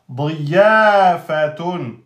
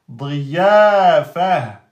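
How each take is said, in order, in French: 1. Le mot finit par la terminaison complète -atun. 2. Le mot finit par un son -a bref.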